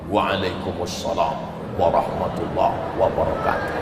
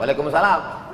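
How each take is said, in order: First: The greeting is answered in a dignified, authoritative tone. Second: The greeting is answered casually and plainly.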